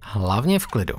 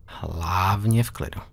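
First: Said in the usual way. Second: Hlavně v klidu drawn out slowly, stress on Hlavně; slow calming. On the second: Shown as a demonstration. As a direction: soothe a scared kid, slowly. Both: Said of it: "repeats the phrase slower".

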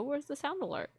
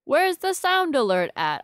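First: Soft, puzzled mutter to herself; quietly wondering where the alert went; quiet asking. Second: Raised, high, insistent question; loud puzzled call to the stream; louder calling out. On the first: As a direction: ask it under your breath, high and soft. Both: Real, not acted. Streamer hunting missing alert.

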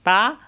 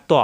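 First: "তা" thin, with an open aa; light ta. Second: "ত" thick, with a rounded o vowel; heavy toa. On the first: Teacher asking students to hear the difference, "তা" light. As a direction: say "তা" lightly, lips unrounded. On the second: Teacher asking students to hear the difference, "ত" thick. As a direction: say "ত" full-mouthed and heavy. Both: Shown as a demonstration. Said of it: "পার্থক্য সবাই খেয়াল করতে হবে".

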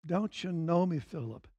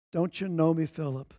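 First: Much softer, almost hushed; tender hushed rebuke to a close friend; quiet tender repeat. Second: Softly asked, gentle rebuke; Jesus gently asking his friend; polite gentle question. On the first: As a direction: let it fall away, barely above a murmur. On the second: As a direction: ask kindly, a touch quieter. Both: Acted. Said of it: "politely, clearly, accurately".

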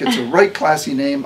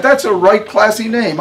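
First: Grateful, calmer. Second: High, loud, laughing delight in the name; delighted praise. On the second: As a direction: gush over the name with a laugh. Harmony delighted, first time. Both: A narrator's reading.

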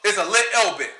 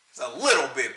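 First: "little bit" with swallowed T's, British style; mock British "little bit" with no T sound; glottal T. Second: "little bit" said with T's dropped, British style; mock the British by swallowing the T's in "little bit"; lower, mocking "little bit" without T's; dropped T mockery. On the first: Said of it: "the T don't make a T sound". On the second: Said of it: "Pronounce the T". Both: Shown as a demonstration.

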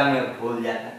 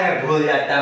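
First: Softer mock of what people say; dropped echo of the gossip; quiet teasing repeat. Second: Said in the usual way. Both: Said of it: "वो तो ये जमाना बोलता है".

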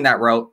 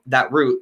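First: "route" rhyming with "boat"; route as "rote". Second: "route" rhyming with "boot"; route as "root". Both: Real, not acted.

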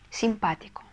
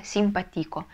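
First: Симпатико stressed on the second syllable, sim-PA-ti-ko; Симпатико the right way, stress on PA; correct stress. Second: Симпатико stressed on the next-to-last syllable, sim-pa-TI-ko; симпатико the wrong way, stress on TI. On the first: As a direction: hit PA in Симпатико. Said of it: "Ударение ставить нужно на второй слог". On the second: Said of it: "если не поставим, получится". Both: Shown as a demonstration.

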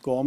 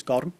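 First: "gorm" as one syllable; English-style "gorm", r and m run together; mispronounced gorm. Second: "gorm" in two syllables, like "gor-um"; "gorm" said Irish-style as "gor-um"; Irish pronunciation of gorm. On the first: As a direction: say "gorm" with no vowel between r and m. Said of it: "is not pronounced gorm". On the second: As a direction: slip a short vowel between r and m in "gorm". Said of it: "it's gorm". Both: Shown as a demonstration.

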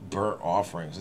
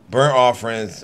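First: Burnt offerings said low and soft, trailing off; quiet half-swallowed Burnt offerings; muttered aside. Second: "burnt offerings" said louder and weighty after a long pause; loud mocking burnt offerings; mocking emphasis. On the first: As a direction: drop "Burnt offerings" to a low, skeptical murmur. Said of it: "burnt animals". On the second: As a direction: land "burnt offerings" hard like a punchline. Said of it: "here we go with the burnt offering bullshit". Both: Shown as a demonstration.

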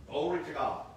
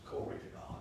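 First: Said in the usual way. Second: Breathy whispered glory to God; whispered praise. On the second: Shown as a demonstration. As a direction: let it fade to a whisper. Repeated, fading praise.

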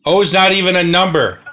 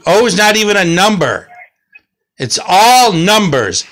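First: NOT stressed, quick and firm; firm correction. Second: Exasperated. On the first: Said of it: "no one said O". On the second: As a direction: fling out "O" in frustration. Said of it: "O's, I told you". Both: Shown as a demonstration.

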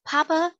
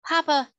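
First: High, rising call to her father; a young girl calling Papa, worried; young girl pleading. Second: High, falling plea to her father; beseeching girl. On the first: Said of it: "she said". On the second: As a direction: beg him, voice dropping. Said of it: "in a beseeching tone". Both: Acted.

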